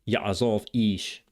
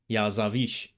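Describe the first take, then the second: First: A clear glottal stop separates the two words. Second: The words run together with no glottal stop. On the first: "clearly pronounced in biblical Hebrew" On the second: "often silent in modern Hebrew"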